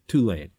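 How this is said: It is said the Southern way. The speaker calls it right. "with the people from the South because they pronounce it"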